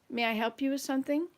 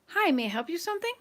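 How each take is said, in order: First: It is said in a hostile, negative tone. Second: It is said in a friendly, welcoming tone.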